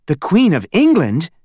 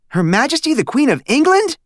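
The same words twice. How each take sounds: First: The mother repeating "The Queen of England?" in surprise, higher; mother hearing the Queen mentioned; mother's surprise. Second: Put-on very high amazed boy on England; boy stunned by a call from the Queen; astonished blurt. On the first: Acted. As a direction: echo it in surprised disbelief. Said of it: "repeated Missus Lambchop". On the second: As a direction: blurt it out in disbelief. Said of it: "Stanley blurted out".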